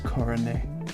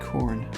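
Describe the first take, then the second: First: The name is said the Japanese way. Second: The name is said the plain English way.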